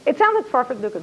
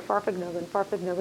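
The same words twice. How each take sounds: First: Said in the usual way. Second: Soft tire hum. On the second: Shown as a demonstration. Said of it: "I can hear the tires on the road".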